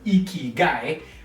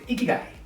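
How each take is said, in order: First: It is said with a flat, unsmiling voice. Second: It is said with a smiling, lifted voice. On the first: The speaker calls it wrong. "It's not an" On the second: The speaker calls it right. "smile and I want you to lift up your cheeks and say"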